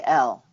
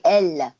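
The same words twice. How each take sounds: First: "elle" said the American way, lower and with a lazy, sleepy tongue; relaxed American "elle", tongue barely moving, pitched lower; American pronunciation. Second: "elle" said the French way with an active, forward tongue; crisp French "elle", tongue working at the front of the mouth; French pronunciation. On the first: Coach showing how Americans say "elle", lazy tongue. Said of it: "and American we say". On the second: Coach showing how French speakers say "elle", active tongue. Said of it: "They would say". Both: Shown as a demonstration.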